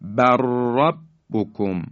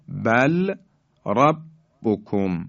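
First: Slow بر ربکم as barrabbukum, r trilled long; doubled ra. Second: Slow بل ربکم with clear l before r; lam left unmerged. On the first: Tajweed teacher demonstrating idgham, lam gone, rolled r in بر ربکم. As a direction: run بر ربکم together on a doubled r. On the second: Tajweed teacher showing letters before merging, separate l in بل ربکم. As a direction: say bal, pause, rabbukum for بل ربکم. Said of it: "لام ساکن". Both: Shown as a demonstration.

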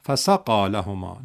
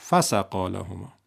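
First: فسقا لهما said slowly as ف plus سقا; teacher modelling the right form; correct reading. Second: فسقا لهما run together as one word from فسق; teacher demonstrating the mistake; wrong reading. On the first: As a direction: give the ف of فسقا its own weight, slowly. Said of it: "پس بگو". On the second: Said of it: "نگو". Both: Shown as a demonstration.

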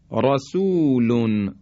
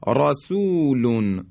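First: رسول with a thick, full ra, slowly; heavy ra. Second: رسول again with thick ra, slow; heavy ra repeated. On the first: Teacher showing heavy ra to listeners. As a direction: draw out رسول with emphatic ra. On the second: Teacher repeating heavy ra example. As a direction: recite رسول with emphatic ra. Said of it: "این درشتی را هست". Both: Shown as a demonstration.

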